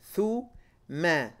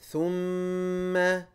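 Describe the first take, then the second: First: The m sound is short and single. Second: The m sound is doubled and held long. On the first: The speaker calls it wrong. "So you shouldn't be saying thu ma" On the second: The speaker calls it right. "put that shadda back on that meme"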